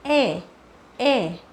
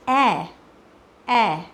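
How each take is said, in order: First: ए said twice, short and closed like the ए in एडी; demo vowel sound. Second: ए said twice, long and open like the ऐ in ऐनक; demo vowel sound. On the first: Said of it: "वो sound होता है ई का". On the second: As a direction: model the ए sound clearly. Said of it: "वो sound होता है ए का". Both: Shown as a demonstration.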